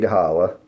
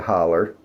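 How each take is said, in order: First: The word ends with an 'oh' vowel. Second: The word ends with an 'er' sound.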